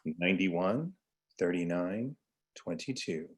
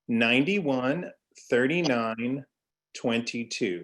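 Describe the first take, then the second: First: It is said in a smooth jazz radio voice. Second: It is said in his normal speaking voice.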